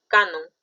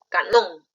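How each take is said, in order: First: The stress is on the first syllable. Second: The stress is on the last syllable. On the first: "su mayor fuerza de voz está en K, no está en non" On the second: "Ahí sí ya, ojo cerrado, lo consideramos como aguda"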